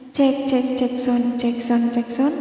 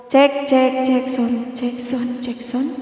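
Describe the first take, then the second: First: Mic check drenched in echo; full echo. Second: Said in the usual way. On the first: Shown as a demonstration. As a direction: sound check with heavy reverb. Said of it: "ini udah full eho, jadi suaranya kayak gini". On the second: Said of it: "ini udah full eho".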